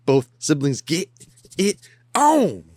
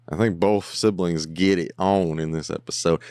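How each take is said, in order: First: Higher, louder, slower playful tease; teasing sing-song. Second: Said in the usual way. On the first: Real, not acted. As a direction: stretch it out to tease the viewers. Teasing repeat of his own line.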